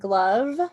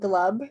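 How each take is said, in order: First: The word ends with a v sound. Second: The word ends with a b sound. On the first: This is the newer, grown-up way of saying it. "switched over to saying glove" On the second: This is the earlier, childlike way of saying it. "and not glub"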